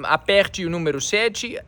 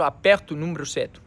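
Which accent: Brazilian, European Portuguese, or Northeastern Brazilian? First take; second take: Brazilian; European Portuguese. First: It is spoken in a general Brazilian accent. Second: It is spoken in a European Portuguese accent. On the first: "aqui você diria" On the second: "lá eles diriam"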